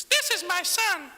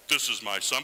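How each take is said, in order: First: Much higher, louder, slow squeaky God voice; comic falsetto voice from the cloud; silly high voice. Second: A touch lower, firm and declaring; lightly voiced divine proclamation; more fitting God voice. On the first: Pretend. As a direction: make God sound absurdly high and drawn out. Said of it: "it'd be weird if it was". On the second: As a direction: say it as God should sound, firmly. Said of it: "I think it should be more like".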